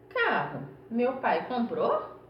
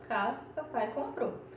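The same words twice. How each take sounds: First: It is said as a question. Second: It is said as a statement.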